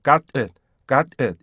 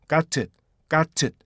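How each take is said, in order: First: "got it" with the t dropped to "eut"; softened GOT IT. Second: "got it" with a released "teut" syllable, slow. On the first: Teacher shows the easier fast form, dropped t in "got it". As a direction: swallow the t in "got it". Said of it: "이렇게 돼서". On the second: Teacher shows the fuller form, released t in "got it". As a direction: sound the t clearly in "got it", slowly. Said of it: "이 뜻으로 하는 게 아니고". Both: Shown as a demonstration.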